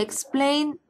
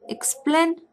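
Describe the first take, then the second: First: The stressed vowel is a gliding 'ay' sound. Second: The stressed vowel is a flat 'e' sound.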